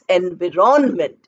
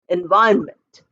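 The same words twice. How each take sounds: First: Every letter is sounded, as it is spelled. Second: The middle syllables are reduced, not as spelled. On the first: The speaker calls it wrong. "it is not pronounced as environment" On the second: The speaker calls it right. "it's pronounced as environment"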